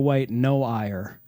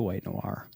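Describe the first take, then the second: First: Noir is split into two syllables, 'no ire'. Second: Noir is said as one syllable, like 'nwahr'. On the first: The speaker calls it wrong. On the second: The speaker calls it right.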